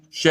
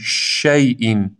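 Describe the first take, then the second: First: شی with a weak sh; شی said quickly, little air; too little hiss. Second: شیء slow, the sh spread like wind; شیء with a long hissing sh. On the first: Teacher showing the weak sh. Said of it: "اینقدر کافی نیست". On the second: Teacher modelling the sh like howling wind. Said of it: "مثل صدای زوزهٔ باد". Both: Shown as a demonstration.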